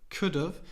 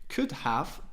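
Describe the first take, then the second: First: The word 'have' is reduced to 'of'. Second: The word 'have' is said in full. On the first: "to could have" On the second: "Could have to"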